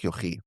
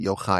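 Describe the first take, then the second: First: The name ends with an 'ee' sound. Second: The name ends with an 'eye' sound. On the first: "I like Yochi" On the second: "Some people pronounce it Yochai"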